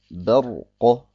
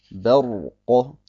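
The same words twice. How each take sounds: No difference in how they are said.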